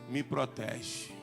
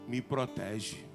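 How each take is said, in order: The two takes are said the same way.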